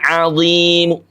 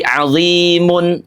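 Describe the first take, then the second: First: The final vowel is only faintly, briefly heard. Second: The word ends with a full vowel plus n. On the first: The speaker calls it right. "Mu-nya terdengar tapi dengan kadar sepertiga harokat saja" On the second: The speaker calls it wrong. "apalagi azimun, tidak"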